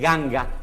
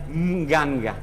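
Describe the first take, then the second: First: The word starts with a plain g sound. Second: The word starts with a nasal ng sound. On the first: The nasal before the g is dropped. "o se omite y se dice ganga" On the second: The original form keeps the prenasal sound. "la verdadera palabra es nganga"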